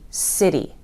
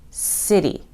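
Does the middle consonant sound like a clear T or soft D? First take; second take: soft D; soft D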